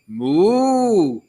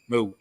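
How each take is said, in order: First: It is said with a lilting Cork accent. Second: It is said with a plain Athlone accent.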